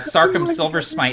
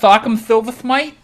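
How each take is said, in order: First: The s sounds are said clearly, without a lisp. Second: The s sounds are lisped, like th sounds.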